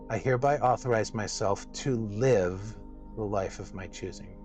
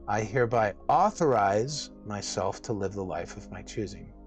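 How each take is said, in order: First: The word "to" is stressed. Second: The word "authorize" is stressed.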